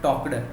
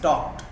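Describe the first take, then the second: First: The ending is an extra syllable. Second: The ending is a short t sound. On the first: The speaker calls it wrong. "not talked" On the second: The speaker calls it right. "it is talked"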